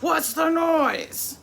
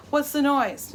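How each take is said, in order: First: Slow, high, loud stern mom. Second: Higher, louder call up the stairs; calling upstairs to the kids, raised voice; hollering upstairs. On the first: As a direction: drag it out like a mother demanding answers. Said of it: "I had to put on my mom voice". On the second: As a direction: shout up to the kids. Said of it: "hollering upstairs". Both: Retold or imitated.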